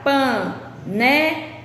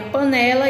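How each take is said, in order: First: Panela, very slow, syllable by syllable, leaning on ne; slow syllable split. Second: Said in the usual way. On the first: Shown as a demonstration. Teacher splitting Panela into syllables slowly for pupils. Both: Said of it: "O, qual é mais forte?".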